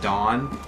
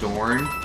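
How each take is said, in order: First: The word is said like dawn, without r. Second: The word is said with an r sound. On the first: The speaker calls it wrong. "I'm calling it Dawn, like the sword" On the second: The speaker calls it right. "horribly mispronounced Dorn"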